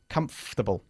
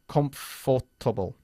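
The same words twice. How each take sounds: First: The middle 'for' syllable is dropped. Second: The middle 'for' syllable is fully pronounced. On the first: The speaker calls it right. "Omitimos la O R cuando lo decimos" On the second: The speaker calls it wrong. "We don't say comfortable"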